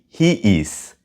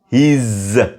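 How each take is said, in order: First: Both words are said fully and separately. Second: The words merge into one contracted syllable. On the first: The speaker calls it wrong. "Don't say he is" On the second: The speaker calls it right. "Say his. His vibration"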